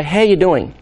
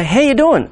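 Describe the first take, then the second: First: Said in the usual way. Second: Much higher, upbeat How you doing; bright, cheery check-in. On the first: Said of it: "I'll come around and say". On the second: Shown as a demonstration. Therapist greeting a sobbing client with cheery higher voice. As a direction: lift it brightly, unbothered by the tears. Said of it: "you're bawling your eyes out".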